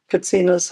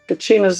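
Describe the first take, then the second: First: The middle consonant is a 'ts' sound. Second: The middle consonant is a 'ch' sound. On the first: This is the form used in the Hopi language. "Katsina's how you say it in Hopi" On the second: This is the English form of the word. "Kachina's English"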